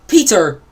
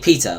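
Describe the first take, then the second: First: It is said in a non-British accent. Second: It is said in a British accent. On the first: "instead of calling him Peter" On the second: "they say Peter, like the animals' rights activists"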